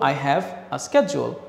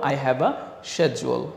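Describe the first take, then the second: First: The word schedule begins with an sk sound. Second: The word schedule begins with an sh sound. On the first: "আরেক পক্ষ বলে হচ্ছে স্ক্যাজুয়াল" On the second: "এক পক্ষ হয়তো বলে শেজুয়াল"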